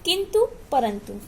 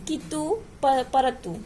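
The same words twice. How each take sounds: First: Said in the usual way. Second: "कितु, परतु" without the nasal, final oo lengthened; incorrect pronunciation. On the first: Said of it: "ये शुद्ध हो गया". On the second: Shown as a demonstration. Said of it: "इसका अशुद्ध क्या है". ("कितु, परतु" में अनुस्वार हटाकर, अंत में बड़ा ऊ)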